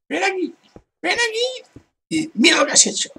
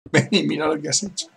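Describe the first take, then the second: First: Much higher mocking voice, fast at the end; high mocking imitation; mock call. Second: Said in the usual way. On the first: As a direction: ham up the player calling you over.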